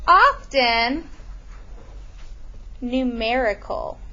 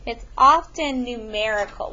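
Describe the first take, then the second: First: Slowed down, spelled out for note-taking; dictating pace; slow dictation. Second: It's "often" numerical, leaning on "often"; repeating with "often" stressed. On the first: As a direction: say it slowly so they can write it. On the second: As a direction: give "often" the weight, the rest plain. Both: Shown as a demonstration. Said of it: "we're gonna put here".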